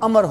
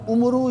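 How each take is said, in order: First: The name ends on r with no vowel. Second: The name ends with a 'u' vowel after r. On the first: The speaker calls it right. "اس کا تلفظ امر ہوتا ہے" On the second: The speaker calls it wrong. "تلفظ عمرو یا امرو وغیرہ نہیں ہوتا"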